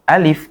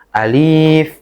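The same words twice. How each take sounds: First: The vowels in the word are kept short. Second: A vowel in the word is drawn out long. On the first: The speaker calls it right. "Alif gitu aja" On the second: The speaker calls it wrong. "tidak boleh dibaca alif atau alif"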